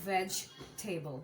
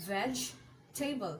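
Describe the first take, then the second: The two takes are said the same way.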